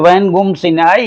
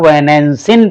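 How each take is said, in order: First: The nasal is said as a full 'gum' syllable. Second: The nasal is a plain nasal sound. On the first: It is recited as Veda. "वेद पढ़ेंगे तो वैनगुम सिनाई ही पढ़ेंगे" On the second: It is read as ordinary Sanskrit or Hindi. "लौकिक संस्कृत में पढ़ रहे हैं या हिंदी के रूप में पढ़ रहे हैं तो इसको वैनैंसिन पढ़ेंगे"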